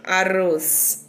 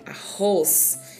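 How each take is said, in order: First: The middle R is a soft, weak tap. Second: The middle R is a strong, harsh sound. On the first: The speaker calls it wrong. "eu não tenho arroz" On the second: The speaker calls it right. "Mas eu tenho um som forte"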